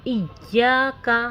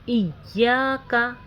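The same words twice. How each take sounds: Both takes have the same delivery.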